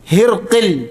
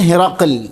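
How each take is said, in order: First: No vowel follows r; an i follows q. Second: An a vowel follows r; q has no vowel. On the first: "റായിന് സുക്കൂനും ഖാഫിന് കസ്റും" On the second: "ഹായിന് കസ്റും റായിന് ഫത്ഹും ഖാഫിന് സുക്കൂനും"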